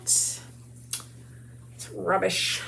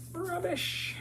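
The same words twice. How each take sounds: First: Said in the usual way. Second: A high, playful British "Rubbish."; mock British accent. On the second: Shown as a demonstration. Crafter echoing her own word, mock British "Rubbish.". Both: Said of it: "Who says rubbish?".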